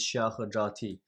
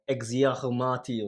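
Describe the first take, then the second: First: The name begins with an sh sound. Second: The name begins with an ex sound. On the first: This is the original Chinese pronunciation. "in Chinese it's pronounced sh" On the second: This is how English speakers read the spelling. "when they saw the X, it was like Exiahomati"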